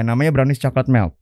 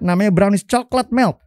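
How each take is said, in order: First: It is said hesitantly, without emphasis. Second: It is said confidently, with clear emphasis. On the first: The seller shows little pride in the product. The speaker calls it wrong. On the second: The seller is proud of the product. The speaker calls it right.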